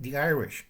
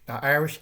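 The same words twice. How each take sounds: First: Said in the usual way. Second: The Irish said louder, hit hard; stress on Irish. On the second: Shown as a demonstration. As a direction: punch "Irish" as you repeat it.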